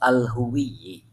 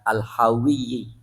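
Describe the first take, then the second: First: The vowel after h is an 'u' sound. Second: The vowel after h is an 'a' sound. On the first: "bidomil ha, dengan dibaca domah haknya" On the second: "bisa juga sih dibaca dengan fathah"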